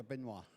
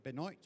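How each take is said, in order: First: Benoit said "ben-WAH", silent t; French pronunciation. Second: Benoit said "ben-OYT", final t sounded; anglicized pronunciation. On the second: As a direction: say Benoit as spelled, rhyming with "exploit". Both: Shown as a demonstration. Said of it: "is it Benoit or Benoit?".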